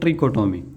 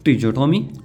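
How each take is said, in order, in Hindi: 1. 'tri' के बाद वाला व्यंजन k ध्वनि है। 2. 'tri' के बाद वाला व्यंजन j ध्वनि है। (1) "कुछ कहते हैं ट्रिकोटोमी" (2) "कुछ पढ़ते हैं ट्रिजोटोमी"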